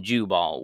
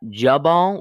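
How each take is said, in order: First: "Jubal" with a long oo, Joo-bal. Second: "Jubal" with a short uh sound, Juh-bal. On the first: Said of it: "Jubal with a U". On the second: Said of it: "Jubal with an A". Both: Shown as a demonstration.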